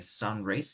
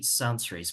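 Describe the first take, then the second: First: The S at the end of sun is dropped. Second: The S at the end of sun is pronounced.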